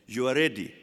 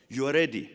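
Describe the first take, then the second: No difference in how they are said.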